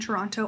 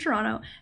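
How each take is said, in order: First: The second T is clearly pronounced. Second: The second T is dropped. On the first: It sounds like someone not from the city. The speaker calls it wrong. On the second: It sounds like a local. The speaker calls it right.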